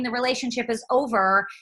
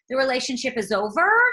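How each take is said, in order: First: The pitch falls at the end. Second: The pitch rises at the end. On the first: It is a firm statement. "rather than saying the relationship is over" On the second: It sounds like a question. "everything sort of sounds like a question"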